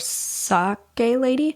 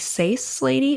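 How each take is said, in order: First: The first word has a K sound. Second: The first word has an S sound. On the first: "if it was Sake, it would be a K" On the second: "but Sace Lady"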